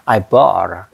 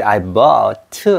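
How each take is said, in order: First: Bought ends on a held, unreleased t. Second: Bought with a full released tu at the end; wrong released t. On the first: Teacher shows the held t in I bought, slowly. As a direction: stop the t without releasing it. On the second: Teacher mimics the wrong Korean-style I bought. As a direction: sound the final t out as tu. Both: Shown as a demonstration. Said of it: "이렇게 이제 I bought 아니에요".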